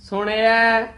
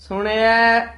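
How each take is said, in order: No difference in how they are said.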